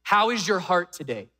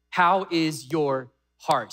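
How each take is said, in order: First: Said in the usual way. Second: HOW IS YOUR HEART drawn out slowly, word by word; slow and weighty on "How is your heart"; slow, pointed repeat. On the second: Real, not acted. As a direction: ask "How is your heart" at half pace. Preacher repeats question for emphasis.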